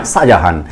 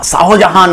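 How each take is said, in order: First: শাহজাহান as sha-ja-haan, "ho" dropped, low; shortened everyday form. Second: শাহজাহান with the middle "ho" sounded, sha-ho-ja-haan; full form, rejected. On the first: Teacher corrects to what pupils really say, shortened pronunciation. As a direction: skip the h syllable in শাহজাহান, pitched low. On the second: Teacher rejects the spelled-out name for pupils, full pronunciation. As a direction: pronounce the h of শাহজাহান as its own syllable. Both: Shown as a demonstration. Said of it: "শাহজাহান নয়".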